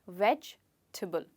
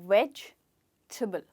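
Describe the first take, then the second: Both takes have the same delivery.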